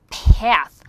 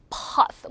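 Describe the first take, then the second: First: "path" with a wide flat "æ"; American A. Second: "path" with a back "ah"; British A. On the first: Teacher shows American vowel, "path" with wide æ. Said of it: "미국 사람들이 입을 이만큼 벌려요". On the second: Teacher shows British vowel, "path" as pahth. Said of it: "영국 사람도 어". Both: Shown as a demonstration.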